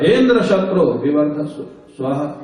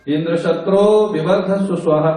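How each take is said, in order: First: The first word is said with raised pitch. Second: The end of the compound has raised pitch. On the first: The speaker calls it wrong. "पहला शब्द ऊंची आवाज में निकल गया" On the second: The speaker calls it right. "अगर अंतोदात्त बोलता, ... ऐसे बोलता"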